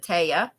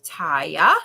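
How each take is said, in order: First: Taya said TAY-uh; alternative pronunciation of Taya. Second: Taya said TIE-uh; first pronunciation of Taya. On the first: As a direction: say "Taya" with an "ay" vowel, questioning. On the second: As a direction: say "Taya" with an "eye" vowel, rising. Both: Shown as a demonstration. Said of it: "or is it Taya?".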